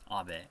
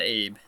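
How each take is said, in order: First: It is said the Japanese way. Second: It is said like the English nickname. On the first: The speaker calls it right. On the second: The speaker calls it wrong.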